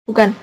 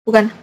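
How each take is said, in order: Both takes have the same delivery.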